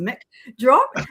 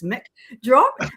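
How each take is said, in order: First: It is said imitating another person's accent. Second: The same.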